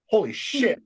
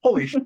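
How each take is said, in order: First: Higher, amazed holy shit with a rising end; a dad's mild mock astonishment, rising at the end; imitating a stunned father; dad's stunned exclamation. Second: Higher, punchier holy shit, cut short; a mock gasp of amazement, clipped off; imitating a father's disbelief, quick and high; dad's stunned exclamation again. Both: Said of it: "that was my dad's expression".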